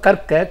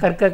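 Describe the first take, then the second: First: The r sound is hard and strongly pressed. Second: The r sound is soft and quickly tapped. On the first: The speaker calls it right. "என்று சொல்வதுதான் முறை" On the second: The speaker calls it wrong. "நுனியில் வச்சு சொல்கிறேன்"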